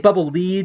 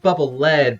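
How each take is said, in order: First: The word lead rhymes with bead. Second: The word lead rhymes with bed. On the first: The bubble guides you somewhere. The speaker calls it wrong. "People people say bubble lead because it leads you" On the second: The bubble is made of a heavy metal. The speaker calls it right. "it's bubble lead because the bubble sinks, so it's lead, which is heavy"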